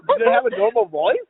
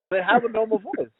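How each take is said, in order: First: High squeaky repeat. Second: Said in the usual way. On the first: Shown as a demonstration. Host repeats his question to friends, pitched high. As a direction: question thrown up high and bright.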